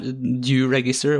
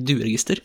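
First: The first part sounds like English 'due'. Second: The first part sounds like Norwegian 'due'. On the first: It is a register of amounts falling due. The speaker calls it right. "Fordi det er på engelsk, så det heter dueregister" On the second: It is a register of pigeons. The speaker calls it wrong. "og ikke dueregister"

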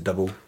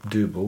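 First: The word is pronounced as plain English double. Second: The word is pronounced with a continental sound. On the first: The speaker just says it the ordinary way. "Do you just go, yeah, it's a double" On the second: The speaker is pretending to be European. "Do you pretend you're continental and say Double?"

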